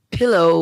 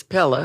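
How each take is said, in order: First: Said in the usual way. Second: "Pella" said with a short e, PEL-luh; Louisiana pronunciation. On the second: Shown as a demonstration. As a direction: say "Pella" the Southern way for pillow. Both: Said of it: "pillow was never pillow".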